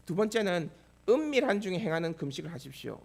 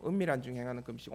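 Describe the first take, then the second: First: Said in the usual way. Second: "은밀한 중에 행하는 금식" repeated lower and softer, leaning on 은밀한; quiet echo for emphasis. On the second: Shown as a demonstration. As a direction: let "은밀한" sink in with a low, soft echo. ("은밀한"을 낮고 조용하게 되새기듯)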